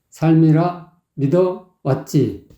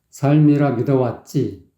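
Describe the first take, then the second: First: The phrase is chopped up with pauses. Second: The phrase is said smoothly in one go.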